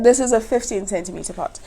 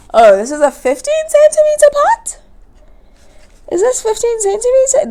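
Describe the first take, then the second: First: Said in the usual way. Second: High, rising unsure question; suddenly doubting the size; surprised question. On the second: Real, not acted.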